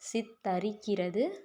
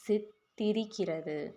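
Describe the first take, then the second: First: The second syllable has an a vowel. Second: The second syllable has an i vowel. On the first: The speaker calls it wrong. "தா வரக்கூடாது" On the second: The speaker calls it right. "தீ"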